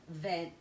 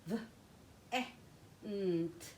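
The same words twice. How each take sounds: First: Said in the usual way. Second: V, e, n, t as separate letter sounds; sounding out. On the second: Shown as a demonstration. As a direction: break "v, e, n, t" into phonemes. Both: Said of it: "Let me come to my next syllable".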